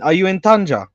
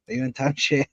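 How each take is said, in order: First: The city name has its local pronunciation. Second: The city name has its English pronunciation. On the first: The speaker calls it right. "Say it Tanja, bro" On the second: The speaker calls it wrong.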